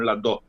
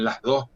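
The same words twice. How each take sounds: First: The s of 'las' is dropped entirely. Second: The s of 'las' is fully pronounced. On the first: "sino las dos" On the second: "no dicen las dos"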